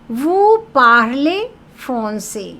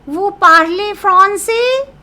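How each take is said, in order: First: The voice stays level or falls at the end. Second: The voice rises high at the end. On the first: It states that the listener speaks French. "Simple statement" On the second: It asks whether the listener speaks French. "if I raise my tone in the end of the sentence, it becomes a question"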